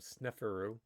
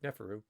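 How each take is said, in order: First: The name starts with an audible S sound. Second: The name starts without any S sound. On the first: "unless you want to call him Sneferu" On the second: "but Neferu"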